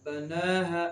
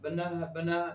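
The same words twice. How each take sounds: First: Long held ना in बना है; stretched vowel. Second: बना है with the ना cut short; short unstretched vowel. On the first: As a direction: draw out the ना of बना है. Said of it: "खींच कर पढ़ते हैं". (बना है का ना खींच कर) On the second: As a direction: say बना है quickly, no held vowel. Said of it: "नहीं पढ़ेंगे". (बना है बिना खींचे, छोटे स्वर से) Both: Shown as a demonstration.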